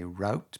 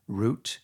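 First: "route" said as rout, rhyming with out; "route" pronounced like rout. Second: "route" said as root, rhyming with boot; "route" pronounced with an oo vowel. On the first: Retold or imitated. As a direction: say "route" with the ow of out, as back home. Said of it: "where I grew up, people would say route". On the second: Shown as a demonstration. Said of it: "people would say route".

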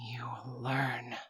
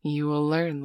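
First: Slow breathy whisper, almost no voice; hushed slow whisper of a promise. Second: Said in the usual way. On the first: Acted. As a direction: lean in and breathe the words. Repeats line as slow whisper.

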